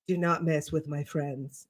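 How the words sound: The voice is deep and resonant from the chest. "the chest voice"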